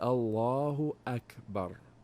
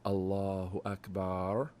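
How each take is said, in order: First: The last vowel of Akbar is kept short. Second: The last vowel of Akbar is drawn out long. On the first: It describes God as the greatest. The speaker calls it right. "So you say Allahu Akbar" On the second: It turns the word into a plural. The speaker calls it wrong. "You don't say Allahu Akbar, extending that A sound, the last A sound"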